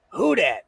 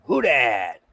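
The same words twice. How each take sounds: First: Numb lips, words slurred; numb from the dentist. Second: Numb lips, lower and slurred; numb from the dentist. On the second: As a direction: mumble it through numb lips. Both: Real, not acted. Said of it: "My lips are numb".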